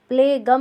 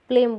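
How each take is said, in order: First: A g sound is pronounced before the m. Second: No g sound is pronounced before the m. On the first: The speaker calls it wrong. "नहीं बोलेंगे" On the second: The speaker calls it right. "बोलते हैं"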